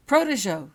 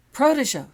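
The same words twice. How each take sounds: First: Loud, high shouted incantation; shouted spell. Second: Full-force yelled incantation, high and loud; shouted spell. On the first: Holly casting at her knight, shouting. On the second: Holly trying again, shouting at her knight. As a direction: fling the spell out at the top of her voice. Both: A narrator's reading. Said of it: "she shouted".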